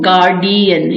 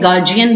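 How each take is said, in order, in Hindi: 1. बीच वाला व्यंजन d की आवाज़ है। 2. बीच वाला व्यंजन j की आवाज़ है। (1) "यानी डी बोलते हैं" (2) "डी नहीं जी बोलना है"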